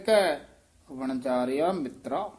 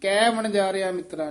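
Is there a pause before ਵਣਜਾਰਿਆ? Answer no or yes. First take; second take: yes; no. First: A short pause comes before ਵਣਜਾਰਿਆ. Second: The words run together without a pause. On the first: The speaker calls it right. "ਉਸ ਤੋਂ ਪਹਿਲਾਂ ਠਮਕ ਲਾ ਦੇਣੀ ਹੈ" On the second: The speaker calls it wrong. "ਕੈ ਵਣਜਾਰਿਆ ਮਿੱਤਰਾ ਨਹੀਂ ਕਹਿਣਾ"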